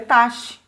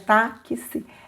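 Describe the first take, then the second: First: The x is said as a single sound. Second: The x is said as two sounds, k and s. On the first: A beginning reader decodes the word letter by letter. "ela lê taxi, normal" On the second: The reader knows the letter's irregular sound here. "táxi tem dois fonemas"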